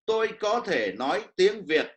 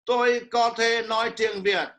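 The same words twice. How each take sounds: First: Each word carries its own distinct tone. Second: Every word is said on one level tone. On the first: "in the standard Vietnamese" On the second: "you say in one tone"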